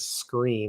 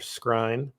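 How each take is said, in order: First: The name sounds like the word 'screen'. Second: The name does not sound like 'screen'. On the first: It is said the way the player says it. The speaker calls it right. "It is Screen. This is how it's pronounced" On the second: It is read the way it is spelled. The speaker calls it wrong. "saying it Buster Scrine because that's how it's spelled"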